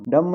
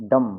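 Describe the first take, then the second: First: डम with a b after m; b sounded. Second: डम ending on m alone; silent b. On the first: Teacher showing the wrong reading, b sounded after डम. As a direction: add a closing b to डम. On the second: Teacher correcting learners, silent b in डम. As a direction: stop on the m of डम, no b. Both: Shown as a demonstration. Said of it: "डम नहीं".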